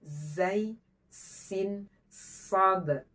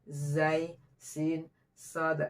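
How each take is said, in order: First: "Zai, sin, sod" with a crisp, pressed hiss; long, sharp sibilant starting each of "Zai, sin, sod"; clean sibilants. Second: "zai, sin, sod" with a weak, muddier hiss; "zai, sin, sod" said slackly, sibilants short and unclear; less clean sibilants. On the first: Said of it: "Nah, disejajarkan". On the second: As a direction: let the z and s of "zai, sin, sod" go loose and unpressed. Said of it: "Tapi kurang bersih". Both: Shown as a demonstration.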